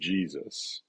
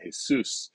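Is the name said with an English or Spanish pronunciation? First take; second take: English; Spanish. First: The name is said with an English pronunciation. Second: The name is said with a Spanish pronunciation. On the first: "the more familiar to me" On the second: "I'm going to use the Spanish pronunciation"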